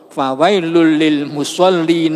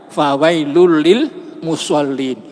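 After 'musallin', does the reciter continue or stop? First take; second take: continue; stop. First: The recitation runs on after 'musallin' without stopping. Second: The recitation stops completely after 'musallin'. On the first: The woe is only for those heedless of their prayers. The speaker calls it right. "jangan wakaf di situ, ... tetapi harus wasol" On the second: It sounds like woe to everyone who prays. The speaker calls it wrong. "berhenti di situ"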